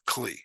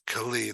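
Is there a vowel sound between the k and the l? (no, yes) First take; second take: no; yes. First: The k and l run together without a vowel. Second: A short vowel is heard between k and l. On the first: The speaker calls it wrong. "not Kli" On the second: The speaker calls it right. "two reasons why it's Kali"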